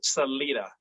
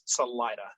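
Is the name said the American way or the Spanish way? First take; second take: Spanish; American. First: The name is said with Spanish pronunciation. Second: The name is said with local American pronunciation. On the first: "Proper Spanish is Salida, but we do not pronounce it that way" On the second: "Locally, it, it is Salida"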